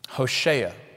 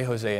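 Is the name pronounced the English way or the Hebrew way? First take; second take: Hebrew; English. First: The name is said with its Hebrew pronunciation. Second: The name is said with its English pronunciation.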